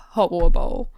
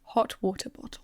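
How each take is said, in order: First: "Hot water bowl" run together with the Ts swallowed; loose, glottal-stopped "Hot water bowl"; casual pronunciation. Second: "Hot water bottle" quietly and carefully with every T sounded; soft, over-careful "Hot water bottle"; self-conscious pronunciation. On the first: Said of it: "Just casually say it". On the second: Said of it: "I'm self-conscious now". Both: Shown as a demonstration.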